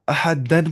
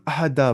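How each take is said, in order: First: The word ends with an n sound. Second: The word ends with a long a sound. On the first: The reading carries on without a stop. "अहदन नहीं पढ़ेंगे जब हम कह देंगे वक्फ।" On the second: The reader stops on this word. "अहदा पढ़ेंगे"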